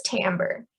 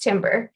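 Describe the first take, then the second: First: "timbre" said as TAM-ber; correct pronunciation of timbre. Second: "timbre" said as TIM-ber; mispronounced timbre. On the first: Lecturer introducing a voice term, "timbre" pronounced TAM-ber. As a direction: say "timbre" with a first syllable like "tam". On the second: Lecturer showing a common mistake, "timbre" mispronounced as TIM-ber. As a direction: say "timbre" just like the wood, timber. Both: Shown as a demonstration. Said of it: "sometimes mispronounced timbre".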